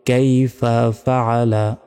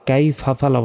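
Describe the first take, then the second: First: The break falls after the full word 'kaifa'. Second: The break falls after the first syllable 'kai'. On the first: The speaker calls it right. "কাইফা একটা শব্দ, ফাআলা একটা শব্দ" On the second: The speaker calls it wrong. "কাই ফাফালা বলা যাবে না"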